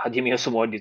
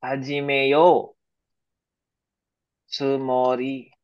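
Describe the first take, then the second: First: Said in the usual way. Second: Each syllable drawn out slowly for students; careful slow teacher demo; slow model phrase. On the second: Shown as a demonstration. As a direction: spell out "Hajimeyo tsumori" slowly, syllable by syllable. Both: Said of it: "Mali, mali".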